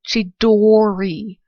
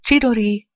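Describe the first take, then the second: First: The name is said with an English accent. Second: The name is said with a Japanese accent. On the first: The speaker calls it wrong. "they failed completely at pronouncing the Japanese names" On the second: The speaker calls it right. "instead of"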